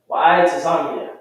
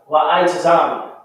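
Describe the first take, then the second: Both takes have the same delivery.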